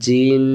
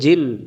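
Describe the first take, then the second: First: The n is held with a long nasal hum. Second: The n is cut short without nasal hum. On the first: The speaker calls it right. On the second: The speaker calls it wrong.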